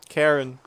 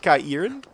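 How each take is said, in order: First: The word is said in a plain, ordinary way. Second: The word is said in a mystical-sounding way. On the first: "I can't pronounce them any differently" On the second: "which makes it sound very mystical, but I also think that's just plain wrong"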